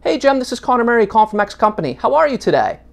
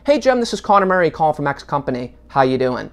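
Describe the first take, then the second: First: It sounds friendly and inviting. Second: It sounds businesslike, with a falling end.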